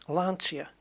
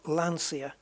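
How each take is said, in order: First: Lancia as LAN-chee-a, with ch; ch sound. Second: Lancia as LAN-see-a; wrong pronunciation. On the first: Gamer trying to say it properly, Lancia with ch. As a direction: say Lancia with a ch in the middle. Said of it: "say it properly". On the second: Gamer showing the mistake, Lancia with an s. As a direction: say Lancia with an s instead of ch. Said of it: "But it's not Lancia". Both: Shown as a demonstration.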